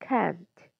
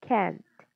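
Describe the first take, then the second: The two takes are said the same way.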